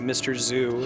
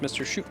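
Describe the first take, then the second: First: The surname begins with a z sound. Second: The surname begins with an sh sound. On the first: The speaker calls it wrong. "Not like a Z, which people will tend to do" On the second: The speaker calls it right. "you pronounce it like an S H in English"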